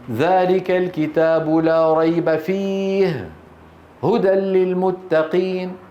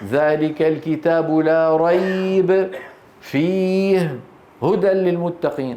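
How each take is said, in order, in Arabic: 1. يوجد وقف بعد la rayb فقط. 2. يوجد وقف بعد la rayb وبعد fihi. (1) "إن قلت الأول صحيح" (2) "أن تقف على كليهما"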